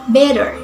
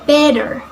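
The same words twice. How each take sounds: First: It is spoken with an American accent. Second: The same.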